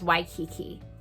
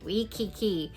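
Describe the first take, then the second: First: The first syllable sounds like 'why'. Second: The first syllable sounds like 'wee'. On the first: The speaker calls it right. "the word was Waikiki" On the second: The speaker calls it wrong. "she'd pronounce it "Wee-kiki,""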